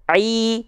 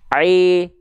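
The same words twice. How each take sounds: First: The i vowel sounds bright and clear. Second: The i vowel sounds dull and unclear. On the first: The speaker calls it right. "Sekarang angkat tengah lidahnya" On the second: The speaker calls it wrong. "kalau dia tidak diangkat tengah lidahnya, bunyinya akan seperti ini"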